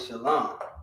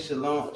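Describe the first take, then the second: First: The second vowel is not an 'o' sound. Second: The second vowel is an 'o' sound. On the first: The speaker calls it right. "We say shalom" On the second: The speaker calls it wrong. "We don't say shalom"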